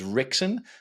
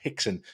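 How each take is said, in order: First: The name begins with an R sound. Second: The name begins with an H sound. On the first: "while it's written as Rickson" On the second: "apparently it's pronounced Hickson"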